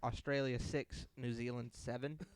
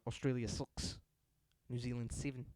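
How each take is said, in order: First: It is read in a plain, non-New Zealand accent. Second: It is read in a New Zealand accent. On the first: "It says New Zealand, uh, uh, sorry" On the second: "if you read that in a New Zealand accent"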